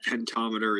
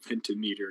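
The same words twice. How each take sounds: First: Said in the usual way. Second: "pentameter" said as "penta" plus "meter"; split into penta-meter. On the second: Shown as a demonstration. Explaining the word's parts to students, "pentameter" as penta-meter. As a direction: say "pentameter" with a full MEE in meter. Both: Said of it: "so penta is five".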